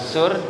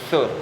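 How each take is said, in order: First: It begins with a plain hissing s sound. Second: It begins with the tongue between the teeth. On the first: The speaker calls it wrong. "Bukan sur" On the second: The speaker calls it right. "tapi sur. Sa gigit sa"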